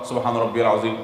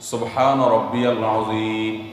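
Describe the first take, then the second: First: It is said in a rushed, hurried way. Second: It is said slowly, gently and lovingly.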